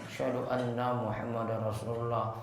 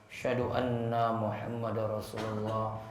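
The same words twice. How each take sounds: No difference in how they are said.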